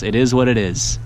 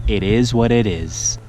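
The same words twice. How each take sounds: First: Said in the usual way. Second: Slow, drawn-out put-on voice. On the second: Shown as a demonstration. Angler repeats his motto slowly in a put-on voice. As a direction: say it again slower in a silly voice. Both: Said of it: "repeated take".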